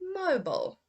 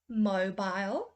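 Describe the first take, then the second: First: The last syllable is a weak 'ul' sound. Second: The last syllable rhymes with 'aisle'. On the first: "then I will go over to the U S pronunciation" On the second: "first I will say the U K pronunciation"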